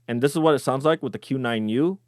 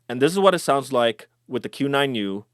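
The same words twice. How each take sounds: First: Mids are not boosted and lows are not cut. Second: Mids are boosted and low frequencies are cut. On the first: "with mid boost and low cut off" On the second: "with the mid boost and the low cut on"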